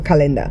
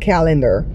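First: It is said with a Creole pronunciation. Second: It is said with a standard English pronunciation.

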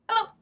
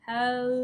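First: It is said fast. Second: It is said slowly.

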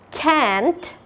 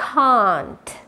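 First: It has an American accent with a flat 'a' vowel. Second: It has a British accent with a long 'ah' vowel. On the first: "On American accent again"

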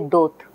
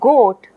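First: The word begins with a d sound. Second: The word begins with a g sound. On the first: The back sound is moved to the front, as a child does. The speaker calls it wrong. "the is a front sound" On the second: This is the adult form of the word. The speaker calls it right. "So ga is a back sound"

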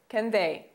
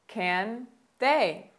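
First: It is said at a faster pace. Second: It is said at a slower pace.

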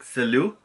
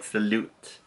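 First: The final T is silent. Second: The final T is pronounced. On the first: The speaker calls it right. "most of the endings are silent, like the T's" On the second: The speaker calls it wrong. "you do not pronounce the T like salute"

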